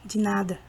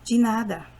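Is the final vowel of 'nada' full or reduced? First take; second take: reduced; reduced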